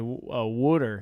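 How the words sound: It is said in a Philadelphia accent. "you're from Philly, right? ... You say uh, water"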